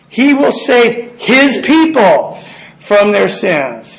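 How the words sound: The stress is on the word his.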